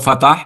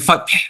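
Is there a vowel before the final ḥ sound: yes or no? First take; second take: yes; no. First: A vowel is added before the final ḥ. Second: The final ḥ follows the t with no vowel. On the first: The speaker calls it wrong. "לא פתח, כי קשה לבטא את החטא הסופי" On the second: The speaker calls it right. "המילה היא פתח"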